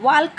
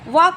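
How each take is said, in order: First: The L sound is pronounced. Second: The L sound is silent. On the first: The speaker calls it wrong. "ವಾಲ್ಕ್ ಅಂತ ಅನ್ನಲ್ಲ ನಾವು" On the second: The speaker calls it right. "ವಾಕ್ ಅಂತೀವಿ"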